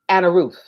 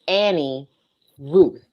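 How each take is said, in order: First: The first name ends with an 'uh' sound. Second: The first name ends with an 'ee' sound. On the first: This is how people in the South say it. The speaker calls it wrong. "In the South, we say Anna Ruth" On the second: This is the name as it is properly given. The speaker calls it right. "Her name is Annie Ruth"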